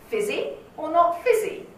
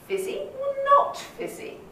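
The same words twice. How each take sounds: First: The stress falls on the word fizzy. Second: The stress falls on the word not. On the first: The same word is highlighted again for no reason. The speaker calls it wrong. "That is weird" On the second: The choice between the two options is highlighted. The speaker calls it right. "So I focus now on the negative"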